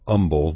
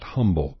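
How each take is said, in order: First: The h is dropped, Texan style. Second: The h is pronounced, standard style.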